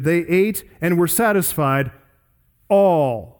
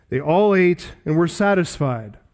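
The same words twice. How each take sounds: First: "all" held back by a pause, then landed alone, falling; emphasis on all. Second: Said in the usual way. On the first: Shown as a demonstration. Preacher showing how Luke's sentence sounds, "all" emphasized last. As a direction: set "all" apart at the end with weight. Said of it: "with emphasis". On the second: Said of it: "puts the emphasis on the word all".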